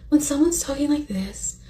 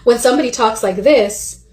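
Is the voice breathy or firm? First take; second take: breathy; firm. First: The voice is breathy and airy. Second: The voice is firm and forceful.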